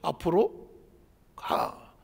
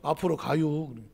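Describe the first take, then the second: First: It is said in standard Korean. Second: It is said in a Chungcheong dialect.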